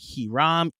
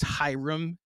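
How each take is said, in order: First: The name begins without an H sound. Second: The name begins with an H sound. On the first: The speaker calls it wrong. "They drop the H" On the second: The speaker calls it right. "it's Hiram"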